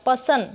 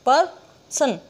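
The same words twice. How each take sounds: First: Said in the usual way. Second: "person" broken as पर, सन with a pause; split syllables. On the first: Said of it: "तो ये बिल्कुल झटके पर". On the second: Shown as a demonstration. Teacher divides the word for students, "person" in two. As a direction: jerk out पर, pause, then सन in "person". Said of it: "बिल्कुल झटके पर, और हमने आराम से बोला".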